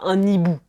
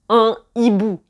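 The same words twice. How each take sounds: First: The n is linked into the next word. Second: The n is not linked to the next word. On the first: The speaker calls it wrong. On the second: The speaker calls it right.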